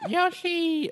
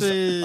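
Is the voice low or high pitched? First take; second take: high; low. First: It is said in a higher-pitched voice. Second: It is said in a low-pitched voice.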